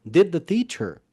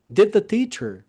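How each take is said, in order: The two takes are said the same way.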